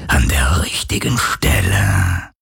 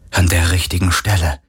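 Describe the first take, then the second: First: Very low, slow whispery ghost; unconcerned phantom. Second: Said in the usual way. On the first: A narrator's reading. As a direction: let it sink into a deep, drawn-out spirit voice. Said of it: "sagte das Phantom unbekümmert". (tiefe, gedehnte, hauchende Phantomstimme)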